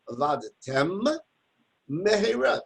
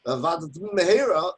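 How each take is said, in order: First: Slow Vavadtem, then a break before mehera; Vavadtem, pause, mehera; pause between words. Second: Vavadtem mehera as one long word; no break in Vavadtem mehera; slurred one word. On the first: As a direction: stop clearly between the two words. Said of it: "Take a break". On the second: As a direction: run the two words together. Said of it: "makes it all one long word". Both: Shown as a demonstration.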